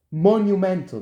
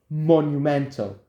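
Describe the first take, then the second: First: "Monumental" said louder with a falling tune; emphatic repeat. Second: Said in the usual way. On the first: Shown as a demonstration. Vlogger stressing to viewers how legendary it would be, louder. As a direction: punch "Monumental" louder each syllable.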